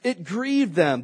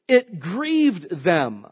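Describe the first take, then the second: First: Grieved said again slow and firm; slow repeat. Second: Grieved drawn out very slowly; slow emphatic reading. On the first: Preacher repeating the verse to the congregation, slow stress. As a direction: repeat grieved, letting it sink in. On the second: Preacher reading verse ten to the congregation, slowly stressed. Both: Shown as a demonstration. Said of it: "That word grieved means".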